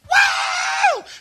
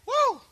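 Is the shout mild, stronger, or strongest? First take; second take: strongest; mild. First: It is the loudest, most energetic shout. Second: It is a fairly mild shout.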